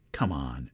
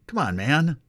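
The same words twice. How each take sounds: First: Said in the usual way. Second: Higher, louder rising come on man; Joe impression. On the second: Preacher quoting Joe for a laugh, louder rising mock. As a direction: toss it off like the president. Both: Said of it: "as Joe says".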